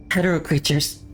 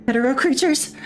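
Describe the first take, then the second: First: Stated reply, only slightly raised; terse report. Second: Very high, rising question; heroine's high voice, questioning; alarmed question. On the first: Commandant's reply over the call. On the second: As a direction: echo it back high in disbelief. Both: Acted.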